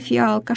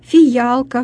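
First: The vowels follow each other with no consonant. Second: A y sound is inserted between the vowels. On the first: It is the standard pronunciation. The speaker calls it right. "вместо" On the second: It is a colloquial pronunciation. The speaker calls it wrong. "в просторечии такое произношение"

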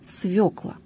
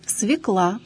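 First: The stress is on the first syllable. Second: The stress is on the second syllable. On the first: The speaker calls it right. "произносится с ударением на первом слоге" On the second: The speaker calls it wrong. "употребление этого слова зачастую является ошибочным"

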